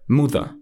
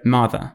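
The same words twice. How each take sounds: First: It is said in a northern English accent. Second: It is said in a standard RP British accent.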